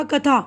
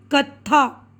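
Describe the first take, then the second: First: कथा said with a single short th, no doubling; कथा read plainly as ka-tha, with no held consonant; without tashdid. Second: कत्था with the th held and doubled, kat-tha. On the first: Teacher reading without tashdid, single th. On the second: Teacher showing tashdid, the th doubled. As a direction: press the doubled consonant in कत्था. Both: Shown as a demonstration. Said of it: "तशदीद है तो ये हम था को दो बार पढ़ेंगे".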